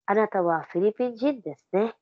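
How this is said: It is said in a soft, gentle tone. The speaker is just saying something to make conversation.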